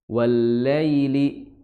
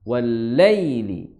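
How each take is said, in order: Both takes have the same delivery.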